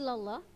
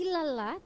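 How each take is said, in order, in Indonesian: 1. Huruf l di Allah terdengar tebal dan berat. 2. Huruf l di Allah terdengar tipis dan ringan. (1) "Dia dibaca tebal" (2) "kenapa enggak ilallah"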